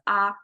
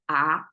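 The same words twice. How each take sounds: First: The pitch stays level and high. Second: The pitch rises from mid to high.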